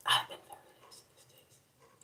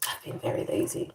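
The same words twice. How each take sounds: First: Full whisper, no voice; whispered confession of laziness. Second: Soft hushed lazy admission; hushed admission to viewers; hushed confession. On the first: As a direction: whisper it like a secret. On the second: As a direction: confess it in a low hush. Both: Real, not acted.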